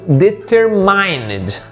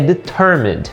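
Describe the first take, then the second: First: The word is pronounced the way it is spelled. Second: The word is pronounced the standard English way. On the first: The speaker calls it wrong. "Provavelmente alguns de vocês podem ter lido determined" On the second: The speaker calls it right. "a pronúncia correta dela é determined"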